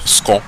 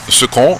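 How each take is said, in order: First: A vowel is dropped and the syllables merge. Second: Both syllables are pronounced fully with their vowels. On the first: "devient ce qu'on" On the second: "ce qu'on devient"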